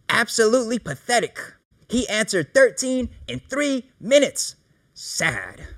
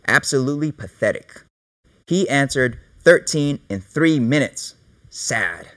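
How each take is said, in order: First: It is read in a scornful, contemptuous way. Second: It is read in a flat, neutral way.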